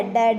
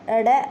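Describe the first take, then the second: First: ड as a hard retroflex stop, as in डमरू. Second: ड said as a dotted ड़, tongue flapping; flapped ड़. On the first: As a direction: tap a firm 'ḍa' on ड, no flap. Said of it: "तो ये क्या बन जाता है". (ड को डमरू वाला कड़ा 'ड' बोलें) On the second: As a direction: flap the tongue on ड, as 'ṛa'. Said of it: "अगर हम इनके नीचे वाली बिंदु हटा देते हैं". (ड को जीभ पलटकर 'ड़' बोलें) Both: Shown as a demonstration.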